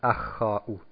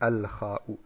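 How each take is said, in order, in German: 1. Das L verschmilzt mit dem folgenden kh-Laut. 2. Das L wird vor kh deutlich ausgesprochen. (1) "Wir sagen nicht Ach-Kha-U" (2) "Nein, wir sagen Al-Kha-U"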